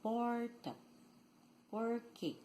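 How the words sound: The R is retroflex, in the country accent.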